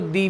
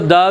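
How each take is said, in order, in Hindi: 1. स्वर लंबा और स्पष्ट है, 'thee' जैसा। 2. स्वर छोटा और अस्पष्ट है, 'thuh' जैसा। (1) "वॉवेल के साथ दी पढ़ते हैं" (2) "कॉन्सोनेंट के साथ द पढ़ते हैं"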